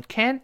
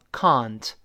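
First: "can't" with the vowel of cat; American-style "can't". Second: "can't" with long ah, kahnt; British-style "can't". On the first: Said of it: "美音中还是发哎". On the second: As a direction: open the vowel wide in "can't". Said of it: "英国读成can't". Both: Shown as a demonstration.

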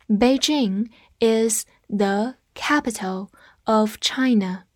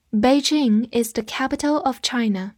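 First: Word by word, slowly, for learners to repeat; slow read-along. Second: Said in the usual way. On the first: Shown as a demonstration. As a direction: read it slowly with a gap after each word. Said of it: "跟着我慢读一遍". (慢速跟读，一词一顿)

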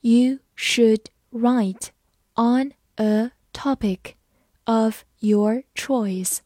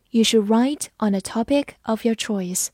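First: Slow, phrase by phrase; slow, chunked model reading. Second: Said in the usual way. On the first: Shown as a demonstration. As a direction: read it slowly in chunks for learners. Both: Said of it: "慢慢来读".

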